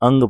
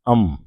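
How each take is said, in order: First: The syllable ends with an 'ng' sound. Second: The syllable ends with an 'm' sound. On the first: The speaker calls it wrong. "आम लोग जो है इसको अंग पढ़ते हैं, ये अंग नहीं है" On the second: The speaker calls it right. "ये है अम"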